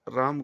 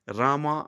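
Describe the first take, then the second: First: The name ends without a final vowel. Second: The name ends with a final a vowel. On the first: The speaker calls it right. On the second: The speaker calls it wrong.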